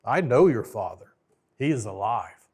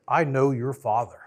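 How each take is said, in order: First: "know" hit hard and held, present tense, in "I know your father"; correcting him, punch "know"; second take, "I" light, weight on "know"; stress on KNOW. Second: "I" gets the weight in "I know your father", the rest said flatly; first take, "I" pushed, "know" light; stress on I. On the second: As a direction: lean on "I", an old monkey's hint. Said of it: "and says". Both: Retold or imitated.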